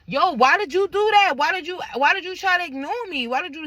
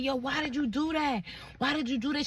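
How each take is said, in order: First: High, loud and insistent; retold angry confrontation. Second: Higher, softer imitation of him; retold distressed plea. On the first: Woman confronting boyfriend who ignored her, retold angry confrontation. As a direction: fire the question back, pitched well up. Retells her heated argument back. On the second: Boyfriend questioning her about the kids, retold distressed plea. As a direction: imitate his pleading, high and hushed.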